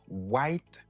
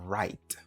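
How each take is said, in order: First: A W sound is pronounced at the start. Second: No W sound is pronounced at the start. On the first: The speaker calls it wrong. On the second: The speaker calls it right. "ou dit right"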